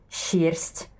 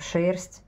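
First: It begins with a soft, long shch sound. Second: It begins with a hard sh sound. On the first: The speaker calls it wrong. "но мы же не говорим" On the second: The speaker calls it right. "Мы же говорим шерсть"

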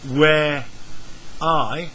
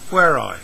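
First: The two words are said separately. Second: The R is joined to the I.

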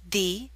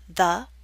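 First: The word 'the' has a long 'ee' vowel. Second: The word 'the' has a short, weak vowel.

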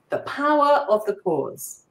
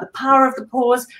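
First: The words are spoken slowly and calmly. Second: The words are rushed out fast and breathlessly. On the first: The speaker sounds confident. The speaker calls it right. "I'm guessing I looked a whole lot more confident then. Because I just paused" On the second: The speaker sounds anxious. The speaker calls it wrong. "I'm talking really, really fast and I can barely breathe"

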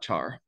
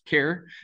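First: The word begins with a 'ch' sound. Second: The word begins with a 'k' sound. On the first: The speaker calls it wrong. "and not char" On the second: The speaker calls it right. "this should be pronounced care"

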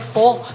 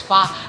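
First: The vowel sounds like 'oh'. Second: The vowel sounds like 'ah'. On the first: The speaker calls it wrong. "Akala ng mga Pinoy, fo" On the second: The speaker calls it right. "ang pronunciation nga daw nila is fa"

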